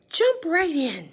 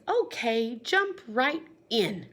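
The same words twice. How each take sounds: First: High, loud, slow exclaim; exclamation. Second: Said in the usual way. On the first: Shown as a demonstration. Teacher rereading with the exclamation point, high and loud. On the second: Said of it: "He says".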